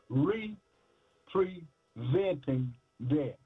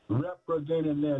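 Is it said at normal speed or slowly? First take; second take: slowly; normal speed. First: It is said slowly and deliberately. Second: It is said at a normal speed.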